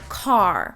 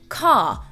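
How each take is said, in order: First: The final R is rounded and pronounced, American-style. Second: The final R is dropped, British-style. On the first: "not car" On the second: "In English, you can hear it just the way that I'm saying now. I will say car"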